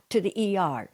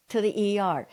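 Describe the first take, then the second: No difference in how they are said.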